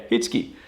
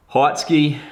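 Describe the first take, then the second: First: Hitsky said right as HITS-kee, short i like "hit"; correct pronunciation, said quietly. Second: Heitsky said wrongly as HIGHTS-kee, vowel like "height"; a casual wrong take on Heitsky, HIGHTS-kee; mock mispronunciation. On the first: Shown as a demonstration. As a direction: settle on Hitsky, HITS-kee, low and soft. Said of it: "It's, uh, yeah". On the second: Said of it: "it always trips people up".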